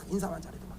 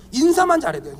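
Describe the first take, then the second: First: Very soft, low repeat; hushed aside. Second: Said in the usual way. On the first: Real, not acted. Pastor marvelling at what greeting does, hushed aside. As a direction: drop right down, under the breath. Repeats the point under breath.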